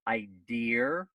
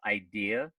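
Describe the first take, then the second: First: It is said with a Boston-area accent. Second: It is said with a standard accent. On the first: The speaker calls it wrong. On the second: The speaker calls it right.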